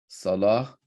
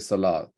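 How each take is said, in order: First: The word ends with an h sound. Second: The word ends with a t sound. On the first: The speaker calls it right. "which is basically Ha" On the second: The speaker calls it wrong. "we don't say Salat"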